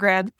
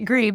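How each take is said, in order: First: The vowel is a short 'e' sound. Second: The vowel is a long 'ee' sound. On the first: The speaker calls it wrong. "I mispronounced it" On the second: The speaker calls it right. "Grebe, not greb"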